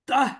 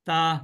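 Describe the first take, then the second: First: It ends in a strong breathy h from the chest. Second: It ends plainly with no breathy h sound. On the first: The speaker calls it right. "বুকের মধ্য থেকে একটু ধাক্কা লাগে" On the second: The speaker calls it wrong. "এগুলো হলো না।"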